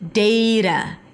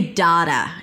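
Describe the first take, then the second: First: The first vowel sounds like the vowel in 'day'. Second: The first vowel sounds like the vowel in 'father'. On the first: "the first sound is A as in day" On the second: "use the ahs and father sound"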